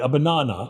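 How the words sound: It is said in a British accent.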